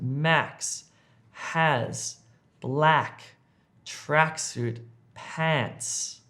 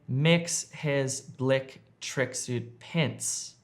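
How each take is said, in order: First: The vowels are stretched into an open 'ah'. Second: The vowels sound like a short 'eh'. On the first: The speaker calls it right. "Try to extend the sound of the eh to an ah sound" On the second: The speaker calls it wrong. "don't say"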